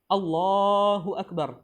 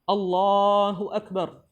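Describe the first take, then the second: The two takes are said the same way.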